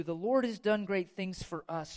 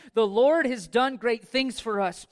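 First: Said in the usual way. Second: Louder, slow, ringing proclamation; big pulpit proclamation; proclaimed. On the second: Acted. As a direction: declare it to the whole church. Psalm line proclaimed loud.

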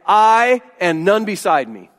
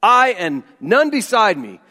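First: "I" hit hard, slow and emphatic. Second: "none" carries the weight, falling at the end; emphatic none. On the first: Pastor stressing "I" to show the emphatic Greek. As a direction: lean heavy on the word "I", drawn out. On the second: Pastor stressing "none" to show the exclusive Greek. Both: Shown as a demonstration. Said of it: "in Greek is emphatic and it's exclusive".

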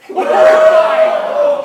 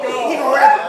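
First: Long, high, loud stretched shout; drawn-out shout. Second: Said in the usual way. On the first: Acted. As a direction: hold it out and yell. Stretched shout then repeat.

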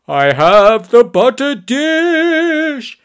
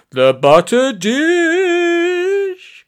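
First: High, loud, drawn-out heroic cry; screamed proclamation. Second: Very high, drawn-out cry losing conviction; less sure of himself. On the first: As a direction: proclaim it slowly like a battle cry. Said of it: "he sort of screamed". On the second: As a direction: keep proclaiming, but with doubt creeping in. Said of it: "sounding a lot less sure of himself". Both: A narrator's reading.

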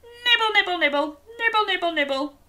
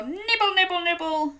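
First: High playful nibble chant; munch leaves like a giraffe; bouncy nibble nibble for kids; giraffe nibbling. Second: Higher nibbling sounds; playful giraffe munch. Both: Shown as a demonstration. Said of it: "and go".

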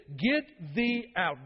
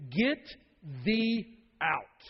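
First: "Get thee out" stretched slow, each word weighted; slow imperative. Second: "get thee out" punched, each word heavy; emphatic command. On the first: Preacher repeating God's order, very slow and weighty. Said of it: "It's emphatic. It's an imperative word here". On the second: Preacher commanding the congregation, emphatic. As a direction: say "get thee out" as a stern order. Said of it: "It's emphatic". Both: Shown as a demonstration.

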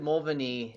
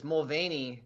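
First: "Mulvaney" as MUL-vuh-nee, short middle vowel; host's pronunciation. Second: "Mulvaney" slowly, with a long stressed VAY; name pronunciation. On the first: Retold or imitated. Guest repeats host's version, "Mulvaney" as MUL-vuh-nee. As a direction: stress the start of "Mulvaney", reduce the middle. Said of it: "said it a lot closer to the way". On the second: Shown as a demonstration. Guest teaches host the last name, slow "Mulvaney" as mul-VAY-nee. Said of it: "how we say the last name".

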